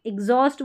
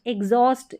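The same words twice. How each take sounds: First: एग्जॉस्ट opening on short "i"; i-first variant. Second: एग्जॉस्ट opening on "e"; e-first variant. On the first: Teacher showing two similar sounds, i-first एग्जॉस्ट. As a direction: say एग्जॉस्ट as "ig-zawst". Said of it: "ई भी बोला है मैंने एक तरफ". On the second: Teacher showing two similar sounds, e-first एग्जॉस्ट. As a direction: say एग्जॉस्ट as "eg-zawst". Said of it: "ए भी बोला है". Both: Shown as a demonstration.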